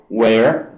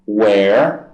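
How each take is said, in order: Both takes have the same delivery.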